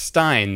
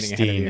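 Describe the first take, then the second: First: The vowel sounds like the 'i' in 'fine'. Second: The vowel sounds like the 'ee' in 'seen'. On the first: The speaker calls it right. "I think it's Stein" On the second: The speaker calls it wrong. "Scott was saying Steen at the end of there"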